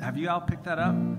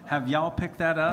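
First: It is said in a neutral accent. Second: It is said in a Southern accent.

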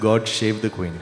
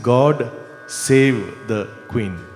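First: Save begins with an sh sound. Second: Save begins with a plain s sound.

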